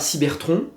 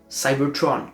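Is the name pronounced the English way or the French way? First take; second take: French; English. First: The name is pronounced the French way. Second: The name is pronounced the English way. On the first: The speaker calls it wrong. "je ne dis pas Cybertron" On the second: The speaker calls it right. "je dirais Cybertron"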